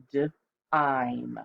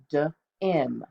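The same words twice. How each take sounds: First: "d-ime" sounded out with a long i that glides into ai. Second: "d-im" sounded out with a short i, slowly. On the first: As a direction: pull "d-ime" apart and stretch the long i. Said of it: "that E is our clue that it's the long vowel sound". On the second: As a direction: stretch "d-im" with a clipped short i vowel. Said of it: "it would be a short I sound". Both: Shown as a demonstration.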